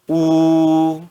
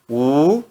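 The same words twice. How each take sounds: First: The pitch stays high and level. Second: The pitch rises from mid to high. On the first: "no primeiro tom" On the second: "No segundo tom"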